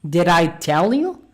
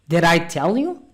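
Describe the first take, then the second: Both takes have the same delivery.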